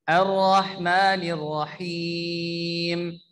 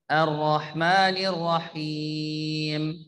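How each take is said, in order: Both takes have the same delivery.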